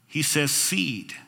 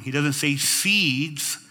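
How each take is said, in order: First: Slow, "seed" said with no s; firm singular "seed". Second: Slow, with the final s of "seeds" sounded; plural seeds. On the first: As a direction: clip "seed" clean, no plural s. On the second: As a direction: stretch "seeds" with a clear s. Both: Shown as a demonstration. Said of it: "Notice that he doesn't say plural".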